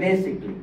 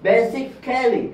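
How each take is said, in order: First: Said in the usual way. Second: Slow basically with a full, stressed KAL before -ly; wrong, spelt-out pronunciation. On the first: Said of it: "এটার উচ্চারণ হবে basically". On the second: Shown as a demonstration. Teacher showing what not to say, slowly mispronouncing basically as ba-sic-KAL-ly. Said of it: "এরকম না".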